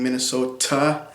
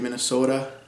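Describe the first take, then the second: First: The T is a clear, crisp T sound. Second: The T is a quick flap, like a D. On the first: "instead of saying" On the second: "which is a flap"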